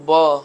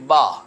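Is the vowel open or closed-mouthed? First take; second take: closed; open. First: The vowel is said with the mouth barely open. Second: The vowel is said with the mouth wide open. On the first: The speaker calls it wrong. "मुंह नहीं खोलेंगे तो बा ये सही अदा नहीं होगा" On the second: The speaker calls it right. "बल्कि बा"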